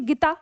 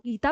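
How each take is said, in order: First: The first vowel is short and quick. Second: The first vowel is held long. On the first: "ये झटका हो गया, यहाँ पे ना जल्दी बोला जा रहा है" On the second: "क्या आप इसको गीता पढ़ेंगे? नहीं।"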